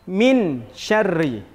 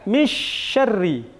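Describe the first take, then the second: First: The n is pronounced fully and clearly. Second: The n is merged completely into the sh. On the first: "Dia tidak boleh dibaca izhar. Izhar tadi artinya jelas. Tidak boleh dibaca" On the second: "Atau dengan idgham memasukkan, tidak"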